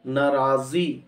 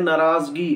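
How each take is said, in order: First: नाराज़ी as naa-raa-zee, no g; correct pronunciation. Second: नाराज़गी with g before the final ee; common mispronunciation. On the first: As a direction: say नाराज़ी ending straight in zee. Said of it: "इसका दुरुस्त तलफ़्फ़ुज़ है". (नाराज़ी, गाफ के बिना) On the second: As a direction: say नाराज़गी as naa-raaz-gee. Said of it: "ये सही तलफ़्फ़ुज़ नहीं है". (नाराज़गी, गाफ के साथ) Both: Shown as a demonstration.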